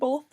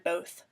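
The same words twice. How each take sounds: First: The word has an L sound in the middle. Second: The word has no L sound in the middle. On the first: "saying both with an L in the middle" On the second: "so I've kind of transitioned to both"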